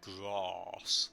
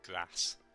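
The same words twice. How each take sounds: First: It is said in a southern English accent. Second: It is said in a non-southern English accent. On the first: Someone from the south says it this way. The speaker calls it wrong. "she's from down south, so she'd be like grass" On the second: The speaker says it this way. The speaker calls it right. "I'd be like grass"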